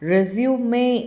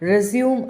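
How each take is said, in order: First: The word ends with an extra 'ay' vowel. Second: The word ends on the 'm' sound. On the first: A document listing one's career for a job application. "நம்ம job application curriculum" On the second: To start something again after stopping. "ஒரு விஷயம் பாதியில் நின்னதை திருப்பி again start பண்ணுறோம்ல"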